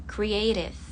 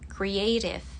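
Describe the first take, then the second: First: The T sounds somewhat like a D. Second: The same.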